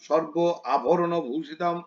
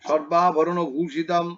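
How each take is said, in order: First: The first word is broken into two separate parts. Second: The first word is run together without a break. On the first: The speaker calls it wrong. "এভাবে বলবে না" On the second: The speaker calls it right. "সর্বাভরণ একসঙ্গে বলবে"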